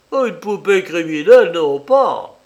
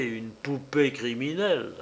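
First: Loud, booming cavernous denial; booming demon lord. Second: Said in the usual way. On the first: Acted. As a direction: boom it out like a prophet. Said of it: "d'une voix caverneuse".

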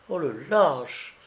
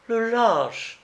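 First: Drawn-out, slow exclamation of outrage; indignant cry. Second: High-pitched outraged exclamation; indignant cry. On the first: Young woman after being shot at, indignant cry. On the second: Young woman after being shot at, high indignant cry. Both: A narrator's reading. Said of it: "s'écria la jeune fille".

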